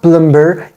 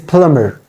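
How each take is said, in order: First: A B sound is heard in the middle. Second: No B sound is heard in the middle. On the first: The speaker calls it wrong. "it is not plumber" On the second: The speaker calls it right. "B is also silent here"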